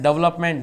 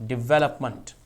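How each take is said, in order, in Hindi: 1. अंतिम अक्षर में पूरा स्वर है। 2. अंतिम अक्षर में हल्का स्वर है। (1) "इस वर्ड को हम निन्यानवे परसेंट लोग गलत बोलते हैं" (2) "ये इसका सही उच्चारण है"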